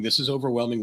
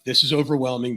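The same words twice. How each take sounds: First: Said in the usual way. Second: A touch of panic, pushed a little louder; half-hearted overwhelmed gasp at the city; mock panic.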